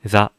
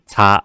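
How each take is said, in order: First: The za is said with relaxed lips. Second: The za is said with tense lips. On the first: The speaker calls it right. "입모양에 힘 풀고 자" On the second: The speaker calls it wrong. "자 아니고"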